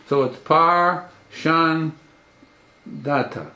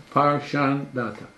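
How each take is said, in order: First: Slow, syllable by syllable Par Shan Data; split into syllables. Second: Said in the usual way. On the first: Shown as a demonstration. Teacher breaking the name down slowly for students. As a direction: spell "Par Shan Data" out in separate beats.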